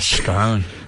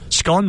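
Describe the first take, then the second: First: The vowel is long, rhyming with cone. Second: The vowel is short, rhyming with con. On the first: "So it's got an E on the end" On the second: "would be S C O N N"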